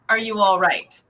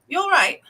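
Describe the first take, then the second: First: Every word is said fully at normal speed. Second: It is said quickly, words run together. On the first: "in England they say" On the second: "when they say it quickly in their accent, it's basically "you all right.""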